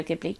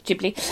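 First: Ghibli with a hard G, as in "give"; habitual hard-G slip. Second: Ghibli with a soft G, like "Jibli"; corrected soft G. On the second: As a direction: correct yourself, starting Ghibli with a J sound. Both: Real, not acted. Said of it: "I've been saying it wrong for years".

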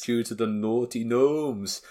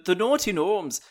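First: Lightly put-on Scottish accent; slow, cheeky Scottish voice. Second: Put-on loud Irish accent; cheeky, loud Irish voice. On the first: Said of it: "I can't do a very good Scottish accent". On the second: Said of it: "I went Irish there".

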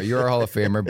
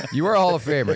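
First: Said in the usual way. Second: Excited. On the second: Real, not acted. Host repeats greeting excitedly.

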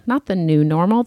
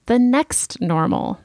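First: "not" stressed with a rising tune. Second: "next" lifted and drawn out slowly; stress on next. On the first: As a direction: hit "not" in "not the new normal". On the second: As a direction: lean on "next" in "The next normal". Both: Shown as a demonstration.

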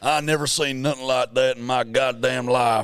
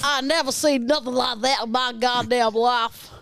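First: Put-on Southern US accent. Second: Mimicked Southern accent. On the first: Host feeds an accent to mimic, Southern US accent. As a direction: play a broad American Southerner. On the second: Co-host mimics host's line, Southern US accent. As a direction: parrot a broad Southern US accent. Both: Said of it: "Full on mimic everything you do".

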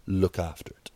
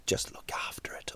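First: Said in the usual way. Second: Hushed, breathy aside to dog owners; whispered aside. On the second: Real, not acted. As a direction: drop to a whisper for the warning.

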